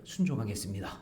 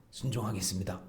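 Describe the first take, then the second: First: Mock pledge. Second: "순종하겠습니다" said softer again, falling; mock pledge again. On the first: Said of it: "입으로는 뭐냐면". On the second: People of Judah promising obedience with their lips, hollow and soft. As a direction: repeat "순종하겠습니다" quietly as an empty promise. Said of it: "이렇게 말을 했는데".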